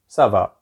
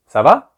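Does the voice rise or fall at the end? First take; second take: fall; rise. First: The voice falls at the end. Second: The voice rises at the end.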